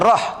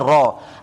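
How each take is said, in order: First: The syllable ends with an audible breathy h. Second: The syllable ends on the open vowel. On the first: The speaker calls it wrong. "Jangan baca rah" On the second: The speaker calls it right. "tapi baca ra"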